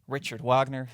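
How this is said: The name is given an American pronunciation.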